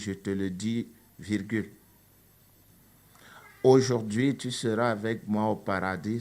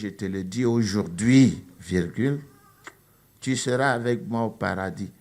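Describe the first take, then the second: First: The break comes before 'aujourd'hui'. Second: The break comes after 'aujourd'hui'.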